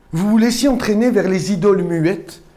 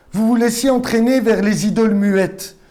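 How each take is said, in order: The two takes are said the same way.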